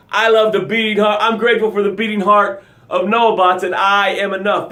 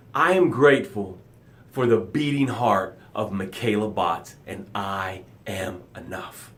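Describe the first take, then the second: First: Energetic gratitude demo. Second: Soft gratitude demo. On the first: Host showing viewers how gratitude should sound, energized. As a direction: declare it like you mean it. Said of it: "That's how your gratitude should sound". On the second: Host showing viewers a gratitude, soft and low. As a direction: say your thanks gently, sinking into it. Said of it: "That's how it sounds". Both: Shown as a demonstration.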